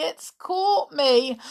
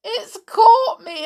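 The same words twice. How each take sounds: First: Slow, fading tearful repeat; slow tearful whimper; slower weeping. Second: Much higher, louder tearful cry; high sobbing wail; weeping. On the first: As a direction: let the sob run down. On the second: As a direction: cry out in tears. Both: Acted. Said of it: "wept Amelia".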